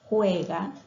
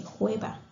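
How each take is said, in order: First: Said in the usual way. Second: Juega said as jueba, the g turned into b; child's mispronunciation. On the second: Shown as a demonstration. Teacher showing a child's g-to-b swap in juega. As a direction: say juega with a b in place of the g. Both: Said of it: "O en lugar de decir".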